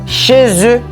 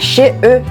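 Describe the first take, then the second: First: The final consonant links into the next word. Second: The words are said without any linking sound. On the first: The speaker calls it right. "On va dire" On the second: The speaker calls it wrong. "c'est pas"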